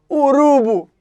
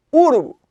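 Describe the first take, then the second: First: URUBU said u-RU-bu, middle syllable high and loud; stress on middle syllable. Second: URUBU said Ú-ru-bu, first syllable high and loud; stress on first syllable. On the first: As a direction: punch the RU of "urubu", let "bu" fall. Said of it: "porque a segunda sílaba". ("urubu" como paroxítona, forte no RU) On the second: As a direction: punch the opening U of "urubu" and drop the rest. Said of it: "porque é a proparoxítona". ("urubu" como proparoxítona, forte no primeiro U) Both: Shown as a demonstration.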